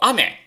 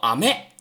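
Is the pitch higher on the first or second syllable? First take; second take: first; second. First: The pitch is high on the first syllable. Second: The pitch is high on the second syllable. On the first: It means rain. "雨下雨叫做阿美" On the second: It means candy. "糖叫做阿美"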